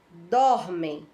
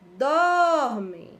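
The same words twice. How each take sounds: First: It is said in a plain, even speaking voice. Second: It is called out, stretching the stressed syllable. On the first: "Só pronunciando desta maneira" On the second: "como se estivéssemos chamando alguém"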